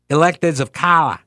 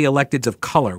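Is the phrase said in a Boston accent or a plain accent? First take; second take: Boston; plain. First: It is said in a Boston accent. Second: It is said in a plain, neutral accent. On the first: "Has that accent? A terrible accent" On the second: "It wouldn't be electeds of color, would it?"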